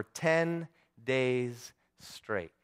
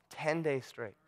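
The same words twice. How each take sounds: First: TEN, DAYS, STRAIGHT spaced far apart, very slowly; slow, weighty "ten ... days ... straight"; drawn-out emphasis. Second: "Ten days straight" said much softer, in one phrase; hushed repeat. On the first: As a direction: stretch out "ten days straight" with pauses between words. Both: Real, not acted. Repeats the length for weight.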